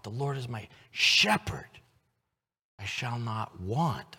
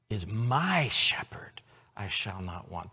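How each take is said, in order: First: Slow, leaning on want; stress on WANT. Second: Whispered, weight on my; whispered stress on my shepherd. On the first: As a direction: let want carry the line. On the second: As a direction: breathe the line, stress my. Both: Shown as a demonstration. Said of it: "emphasize different words".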